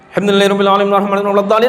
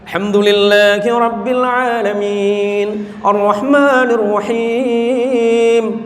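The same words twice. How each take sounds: First: It is recited extremely fast, rushed. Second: It is recited slowly and measuredly.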